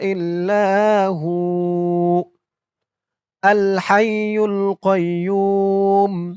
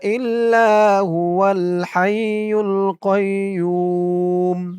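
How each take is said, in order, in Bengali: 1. 'hu'-এর পরে থামতে হয়। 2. 'hu' সরাসরি 'al'-এর সাথে মিলে 'huwal' হয়ে যায়। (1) "আপনি যদি থামতে চান তাহলে বলবেন হু" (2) "যদি না থামেন এইটুক ধরে পড়েন তাহলে বলবেন হুয়াল হাইয়ুল"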